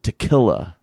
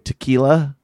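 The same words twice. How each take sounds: First: The word is said with a regional Utah pronunciation. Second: The word is said the usual standard way. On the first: "she'll pronounce it tequila" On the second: "instead of saying tequila"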